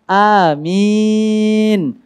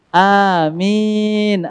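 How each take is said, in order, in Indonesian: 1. Vokal pertama pendek, yang terakhir panjang. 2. Vokal pertama pendek, yang terakhir panjang.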